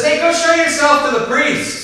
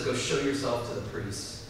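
First: Casual Jesus. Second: Quiet Jesus. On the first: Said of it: "And Jesus just says". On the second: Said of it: "And Jesus says". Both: Retold or imitated.

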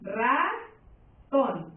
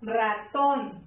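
First: RA... TÓN, each syllable held with a clear gap; "Ratón" broken in two, RA rising, TÓN falling; split into syllables. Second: Ratón as one word, accent on the final TÓN; "Ratón" joined up, last syllable stressed. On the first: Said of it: "si tú la divides en sílabas". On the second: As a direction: land firmly on the TÓN of Ratón. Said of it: "Lleva acento en la". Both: Shown as a demonstration.

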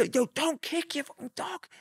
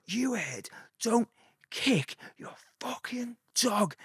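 First: Much higher mock yell at a stranger; retold yell. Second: Slow, much higher put-on Scouse accent; scary Scouse. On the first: Yelling at a man to stop kicking his dog, high mock shout. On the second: Warning a dog-kicking skinhead, in slow scary Scouse. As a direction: lean into a threatening Scouse accent, drawing it out. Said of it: "he tried to engage full scary Scouse".

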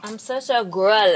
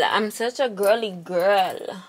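First: Said in the usual way. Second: Put-on slow, stretched-out girly girl; drawn out. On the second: Shown as a demonstration. Teasing herself as a girly girl, slowly drawn out. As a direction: savor each word.

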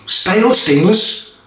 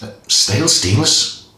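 First: "Stale stainless?" asked much higher and slow, puzzled; "Stale stainless?" as a baffled question; puzzled at own slip. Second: Said in the usual way. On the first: Real, not acted. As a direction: catch your own mistake. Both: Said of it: "Stainless steel version".

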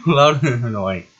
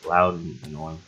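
First: Slow, amused echo through giggles; giggly, stretched-out self-teasing; laughing repeat. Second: Said in the usual way. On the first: Real, not acted. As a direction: draw it out while laughing. Repeats own words, laughing.

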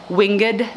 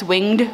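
First: Winged as two syllables, "wing-ed"; two-syllable pronunciation. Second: Winged as one syllable, "wingd"; one-syllable pronunciation. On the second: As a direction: say winged with a silent e. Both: Shown as a demonstration. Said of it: "I don't know if it's winged or winged".

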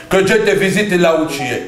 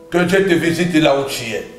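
No difference in how they are said.

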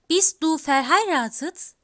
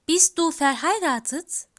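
Both takes have the same delivery.

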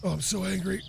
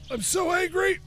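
First: Said in the usual way. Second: Higher, whiny mock anger on "angry". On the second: Real, not acted. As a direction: complain in a pitched-up mock fury.

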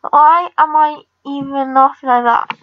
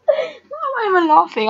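First: Said in the usual way. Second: High, still giggling as she asks; asking through leftover laughter; laughing. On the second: Real, not acted. Gamer laughs at her own odd laugh, still giggling.

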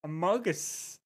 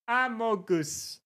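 First: "Amogus" with reduced English end vowels; English pronunciation. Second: Slow "Amogus" with French-style vowels; French pronunciation. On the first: Streamer tries "Amogus" after asking for English, English pronunciation. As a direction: say "Amogus" the English way, like "uh-MOH-guss". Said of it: "And in English?". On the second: Streamer practises "Amogus" after the translator, French pronunciation. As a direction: draw out "Amogus" as if it were French. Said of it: "if you do French". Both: Shown as a demonstration.

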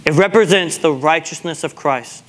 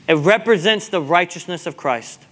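Both takes have the same delivery.

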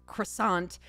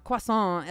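First: Croissant said the English way, cruh-SANT with a hard t; croissant with an English r and a clear t. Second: Croissant said the French way, kwah-SAH with a nasal end. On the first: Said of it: "as opposed to". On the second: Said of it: "I wanted to say". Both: Shown as a demonstration.

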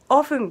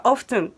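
First: オフン with no T sound; silent T. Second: オフトゥン with the T sounded. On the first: Teacher comparing two pronunciations for viewers, オフン with silent T. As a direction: drop the T in オフン. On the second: Teacher comparing two pronunciations for viewers, オフトゥン with sounded T. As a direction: put a clear T into オフトゥン. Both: Shown as a demonstration. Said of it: "Tが、Tは言わないって感じ".

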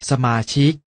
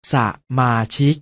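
First: Said in the usual way. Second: สะมาชิก split into สะ, มา, ชิก; short สะ, gap, then มา and ชิก; syllable by syllable. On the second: Shown as a demonstration. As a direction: sound out สะมาชิก beat by beat. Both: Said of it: "อ่านว่า".

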